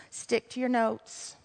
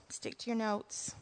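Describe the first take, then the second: First: Soft self-reminder under the breath; muttered to self. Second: Fading almost to nothing, much softer; barely audible mutter. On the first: Preacher scolding herself to stick to her notes, muttered. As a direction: tell yourself quietly to stay on track. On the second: Preacher repeating her self-reminder, nearly inaudible. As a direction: repeat it to yourself almost silently. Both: Real, not acted.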